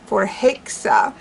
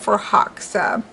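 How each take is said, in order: First: The stressed vowel sounds like 'hey'. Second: The stressed vowel sounds like 'ha'. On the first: "a more of a hey sound" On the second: "instead of ha"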